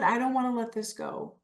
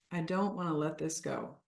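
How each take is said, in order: First: Slightly raised, keen reluctance; animated clinging. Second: Much softer, subdued repeat; soft reluctance. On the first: Coach voicing attachment to food for the group, animated. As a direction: hold on to it eagerly. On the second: Coach voicing attachment to food for the group, softly. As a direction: say it quietly, as if to yourself. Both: Shown as a demonstration.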